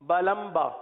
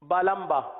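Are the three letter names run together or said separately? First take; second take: run together; run together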